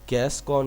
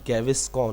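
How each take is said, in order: First: The name is said as two syllables, 'gas kaun'. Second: The name is said as three syllables, 'gaviscon'. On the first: The speaker calls it wrong. "गैस कौन नहीं होता" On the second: The speaker calls it right. "गैविस कौन होता है"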